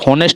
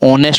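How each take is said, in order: First: The word begins with an h sound. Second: The word begins with a vowel sound. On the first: The speaker calls it wrong. "हा नहीं होता है, होनेस्ट नहीं" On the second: The speaker calls it right. "ऑनेस्ट होता है"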